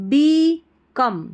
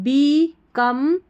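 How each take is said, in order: Both takes have the same delivery.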